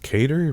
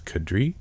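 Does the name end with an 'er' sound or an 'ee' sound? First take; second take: er; ee. First: The name ends with an 'er' sound. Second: The name ends with an 'ee' sound. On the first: The speaker calls it wrong. "I used to always think his name was pronounced Cater" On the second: The speaker calls it right. "but it's Kadri"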